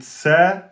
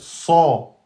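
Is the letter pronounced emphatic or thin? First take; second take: thin; emphatic. First: The letter is pronounced light and thin. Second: The letter is pronounced heavy and emphatic. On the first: The speaker calls it wrong. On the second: The speaker calls it right.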